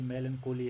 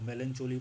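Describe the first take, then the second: First: The 'ch' is said as a k sound. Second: The 'ch' is said like the ch in chair. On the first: The speaker calls it right. "ये मेलनकोली है" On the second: The speaker calls it wrong. "कोई इसको मेलनचोली पढ़ रहा है"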